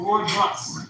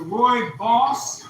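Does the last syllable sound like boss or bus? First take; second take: bus; boss. First: The last syllable rhymes with bus. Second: The last syllable rhymes with boss. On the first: "Roy and his bus" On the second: "Roy and his boss"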